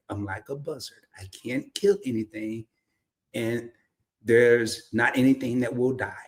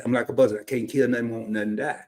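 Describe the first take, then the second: First: "kill anything" fully enunciated, formal diction. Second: Casual Southern run-together delivery; down-home Southern way. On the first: Translating the saying for outsiders, formal careful pronunciation. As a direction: pronounce "there's not anything that will die" carefully, word by word. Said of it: "I'm gonna say it in a formal way". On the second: Showing how folks back home say it, casual Southern accent. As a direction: let it slide out in Southern dialect. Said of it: "But that ain't how we say it". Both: Shown as a demonstration.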